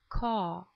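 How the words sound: It is said in a British accent. "like British people, when they say car"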